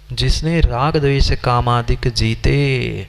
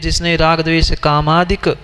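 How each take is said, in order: First: The phrase runs on through 'jeete' before pausing. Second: The phrase pauses right after 'kamadik'. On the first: The one who conquered attachment and aversion knew the world. The speaker calls it right. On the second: Only by living does one know everything. The speaker calls it wrong.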